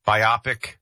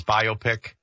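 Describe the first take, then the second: First: "biopic" said "bye-OP-ik"; alternative pronunciation. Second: "biopic" said "BYE-oh-pick"; compound-word pronunciation. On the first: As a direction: stress the middle of "biopic", short "op". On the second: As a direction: say "biopic" as bio plus pic. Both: Shown as a demonstration. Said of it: "people say it both ways".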